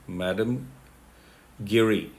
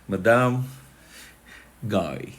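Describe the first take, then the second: First: The name is pronounced the English way. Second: The name is pronounced the French way.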